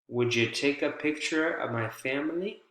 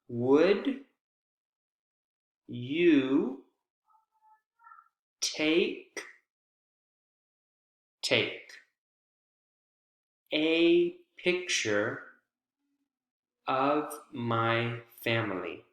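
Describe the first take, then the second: First: The words run together with natural rhythm. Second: Every sound is said fully, without rhythm. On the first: The speaker calls it right. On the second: The speaker calls it wrong.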